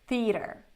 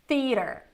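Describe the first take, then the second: Both takes have the same delivery.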